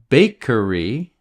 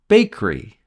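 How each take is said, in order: First: The middle sound is fully pronounced. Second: The middle sound is dropped. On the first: The speaker calls it wrong. "We don't say bakery" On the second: The speaker calls it right. "We say bakery. We cut or eliminate the middle sound"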